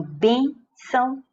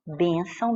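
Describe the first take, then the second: First: "bênção" with BÊN high and separated from ção; stress on BÊN. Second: Said in the usual way. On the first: Shown as a demonstration. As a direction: lean on the first syllable of "bênção". ("bênção" com BÊN forte e destacado) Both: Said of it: "é paroxítona".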